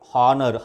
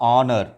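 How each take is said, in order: First: The word starts with an h sound. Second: The word starts with a vowel sound. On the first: The speaker calls it wrong. "హానర్ హాతో" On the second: The speaker calls it right. "ఇది ఎలా పలకాలి అంటే ఆనర్. ఓతో start అవ్వాలి"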